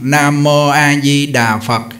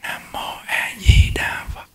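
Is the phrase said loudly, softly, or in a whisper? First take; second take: loud; whispered. First: The phrase is recited in a loud voice. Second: The phrase is barely voiced, mostly moving lips. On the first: "lớn tiếng nè" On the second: "niệm thầm nhép môi kim cang trì"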